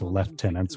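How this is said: It is said the British way, "lef-tenants".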